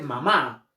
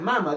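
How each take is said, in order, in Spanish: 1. El acento está en la última sílaba. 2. El acento está en la primera sílaba. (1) "dije mamá" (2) "yo no dije mama"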